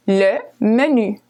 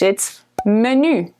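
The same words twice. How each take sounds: First: Le menu with French u, meh-nü; French pronunciation. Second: Menu said the English way, men-yoo; English pronunciation. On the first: Teacher contrasting French menu with English. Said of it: "just pronounced the French way". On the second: Teacher contrasting English menu with French. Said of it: "very similar to a menu in English". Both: Shown as a demonstration.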